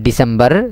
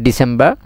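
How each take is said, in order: First: ডিসেম্বর with a clearly sounded final r; American DECEMBER. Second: ডিসেম্বর with silent final r; British DECEMBER. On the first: Teacher showing the American way, ডিসেম্বর with strong final r. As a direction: hold the r ending ডিসেম্বর. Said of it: "American হলে আরিবে সুন্দর করে উচ্চারণ". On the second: Teacher showing the British way, ডিসেম্বর without final r. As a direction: drop the r at the end of ডিসেম্বর. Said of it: "আরিবে উচ্চারণ ন করে". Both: Shown as a demonstration.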